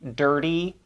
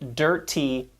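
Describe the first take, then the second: First: The middle consonant is a quick soft flap. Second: The middle consonant is a crisp, hard T. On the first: The speaker calls it right. "we use tap sounds" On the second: The speaker calls it wrong. "we don't say"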